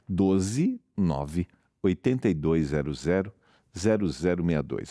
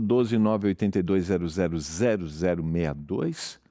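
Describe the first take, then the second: First: The number is read at a slower pace. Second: The number is read at a quicker pace.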